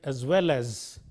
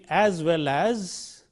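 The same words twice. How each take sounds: First: The word 'as' has a reduced vowel. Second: The word 'as' has a full vowel. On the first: The speaker calls it right. "we are using the weak form is" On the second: The speaker calls it wrong. "we are not using the strong form as"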